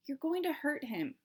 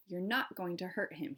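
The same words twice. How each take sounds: First: Said in the usual way. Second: Not pressed harder; stress on not. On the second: A narrator's reading. Omri telling the Indian firmly, stress on not. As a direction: lean on the word not. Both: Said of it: "he said to the Indian".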